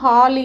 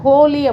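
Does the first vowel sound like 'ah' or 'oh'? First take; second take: ah; oh. First: The first vowel is an open 'ah' sound. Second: The first vowel is a rounded 'oh' sound. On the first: This is how it is usually pronounced. "உச்சரிப்பு பார்த்திங்கன்னா ஹாலி அப்படின்னு தான் சொல்லுவாங்க, ஹாலிவுட் அப்படின்னு சொல்கிறாங்க" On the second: This is how the speaker's group pronounces it. "அதை ஹோலி அப்படின்னு தான் சொல்லுவோம்"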